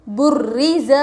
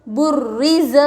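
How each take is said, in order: No difference in how they are said.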